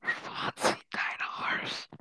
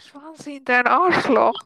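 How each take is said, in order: First: Slow, secret whisper. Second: Louder, slower, voiced out loud. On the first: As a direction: lean in and whisper it slowly. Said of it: "das darf niemand hören". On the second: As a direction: finally say it out loud. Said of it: "Sag laut". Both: Real, not acted.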